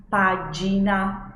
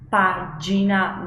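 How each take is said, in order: No difference in how they are said.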